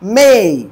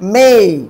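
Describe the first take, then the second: Both takes have the same delivery.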